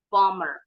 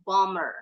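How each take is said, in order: First: The b sound is silent in the middle. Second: The same.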